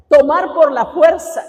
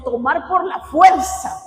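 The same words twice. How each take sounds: First: Tomar por la fuerza hammered louder, fuerza rising; emphatic repeat. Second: Said in the usual way. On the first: Shown as a demonstration. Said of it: "se traduce como tomar por la fuerza".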